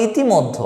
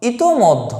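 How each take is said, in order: First: ইতিমধ্য with i after t, i-ti-moddho; common wrong form. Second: ইতোমধ্য with o after t, i-to-moddho; correct form. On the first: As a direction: say i-ti, not i-to, in ইতিমধ্য. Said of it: "আমরা বলি ইতিমধ্য". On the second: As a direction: say i-to, not i-ti, in ইতোমধ্য. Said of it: "যে শব্দটা হচ্ছে". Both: Shown as a demonstration.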